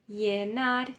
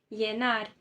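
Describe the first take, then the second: Both takes have the same delivery.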